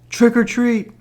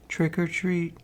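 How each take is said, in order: First: It is said a little louder. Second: It is said very softly.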